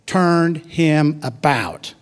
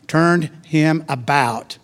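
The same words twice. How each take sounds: First: "Turned him about." very slow, weight on "Turned", falling at the end; slow emphatic phrase. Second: "turned him about" drawn out, weight on "turned"; slow emphatic phrase. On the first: Preacher has the congregation repeat it, slow emphatic stress. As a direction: stretch every word and lean on "Turned". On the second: Preacher reading Jesus turning around, slow emphatic stress. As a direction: lean hard on "turned" and stretch the phrase. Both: Shown as a demonstration. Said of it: "Repeat that after me".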